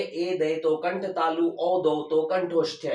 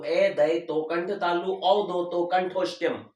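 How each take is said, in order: First: Drawn-out repeat of the memory rule, leaning on तो and औ; teacher's slow recitation of the mnemonic; slow rote recitation. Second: Slow, drawn-out chant of a memory rule, stressing ए and औ; slow rote recitation. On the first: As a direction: say the rule again slowly, for memorising. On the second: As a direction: chant it slowly so students can memorise it. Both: Shown as a demonstration. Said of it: "यानी याद कर लीजिए".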